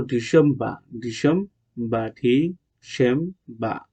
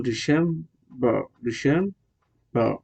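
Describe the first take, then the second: First: ডিসেম্বর as "di-sem-bah", no final r; British pronunciation. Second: ডিসেম্বর as "di-sem-berr", final r sounded; American pronunciation. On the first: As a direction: drop the last r of ডিসেম্বর. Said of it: "British হলো". (ডিসেম্বর, র-হীন British উচ্চারণে) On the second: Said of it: "American হলো". (ডিসেম্বর, শেষে র-সহ American উচ্চারণে) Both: Shown as a demonstration.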